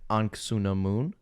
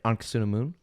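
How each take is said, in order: First: The name is said slowly with every syllable. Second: The name is said quickly with syllables run together. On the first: "if you're saying this, it would be like" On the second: "but it's like"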